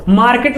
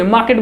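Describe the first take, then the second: First: मार्केट with a rolled r, "maar-ket"; मार्केट said the wrong way, r pronounced. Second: मार्केट without the r, "maa-ket"; मार्केट said the right way, r left silent. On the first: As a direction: say मार्केट sounding the r as the wrong example. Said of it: "मार्केट नहीं बोलेंगे". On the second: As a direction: say मार्केट dropping the r as the correct model. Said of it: "मार्केट बोलेंगे". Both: Shown as a demonstration.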